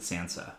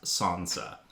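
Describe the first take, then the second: First: Sansa with a short a, as in sand; own American pronunciation. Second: Sansa with a long ah, 'Sahnsa'; supposedly correct pronunciation. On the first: Co-host admitting how they say the name, short-a Sansa. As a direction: say Sansa with the vowel of cat. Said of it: "I pronounce it Sansa". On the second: Co-host giving the supposed pronunciation, long-a Sansa. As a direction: open the first vowel of Sansa to ah. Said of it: "it's supposed to be pronounced Sansa". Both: Shown as a demonstration.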